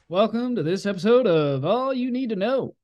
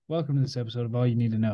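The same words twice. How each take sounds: First: It is said with big, over-the-top energy. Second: It is said toned down, with low energy.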